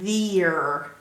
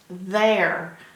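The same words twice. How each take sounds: First: The vowel is a long 'ee' sound. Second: The vowel sounds like 'air'. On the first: This is how the spelling would suggest it. The speaker calls it wrong. "the E would be making this E say its long sound, which is E, which would make it there" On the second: This is the real pronunciation. The speaker calls it right. "But that's not how you pronounce it. It's pronounced there"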